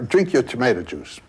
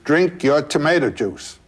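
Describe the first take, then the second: First: It is said at normal volume. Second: It is said in a louder voice.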